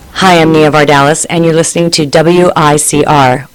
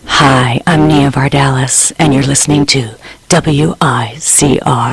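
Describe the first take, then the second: First: It is said in a plain everyday voice. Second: It is said in a put-on radio announcer voice.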